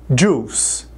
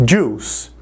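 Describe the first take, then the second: The two takes are said the same way.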